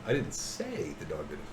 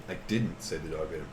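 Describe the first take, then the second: First: "I" stressed, rest dropped lower and softer. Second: "didnt" punched, rest lower and softer; stress on didnt. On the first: Teacher showing stress on "I" to students. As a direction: put the weight on "I". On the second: Teacher showing stress on "didnt" to students. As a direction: lean on "didnt" to deny it. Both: Shown as a demonstration. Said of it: "It's the emphasis".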